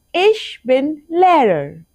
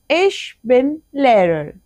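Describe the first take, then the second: First: Slow, careful model; slow model sentence. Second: Slow repeat with stress on ich. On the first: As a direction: say it slowly for learners. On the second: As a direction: echo it for the class. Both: Shown as a demonstration.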